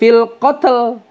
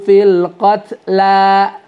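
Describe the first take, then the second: First: The word ends abruptly on the l sound. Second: The word ends on a held two-beat a. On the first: The speaker calls it wrong. "seolah-olah lamnya disukun" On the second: The speaker calls it right. "Lamnya dua, dua harakat qatla, bukan qatl"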